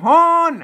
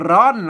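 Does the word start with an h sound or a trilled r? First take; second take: h sound; trilled r. First: The word starts with an h sound. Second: The word starts with a trilled r sound. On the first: "ภาษาล้านนาเฮาบ่ออกบ่ลั่นลิ้นเอาออกเสียงฮอ" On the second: "ภาษาไทยเปิ้นออกเสียงว่าร้อนลั่นลิ้นหน่อยครับ"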